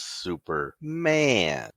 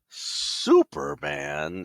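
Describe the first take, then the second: First: The stress is on the last part, man. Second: The stress is on the first part, super. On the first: The hero is more human than super. "he's more human than super" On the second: The hero is mainly super. "it wasn't Superman"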